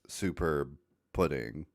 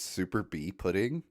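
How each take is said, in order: First: The first word is said as the single word 'superb'. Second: The first word is split as 'super' plus letter B. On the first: The speaker calls it right. "it's two words" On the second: The speaker calls it wrong. "that's just how you read it the first time"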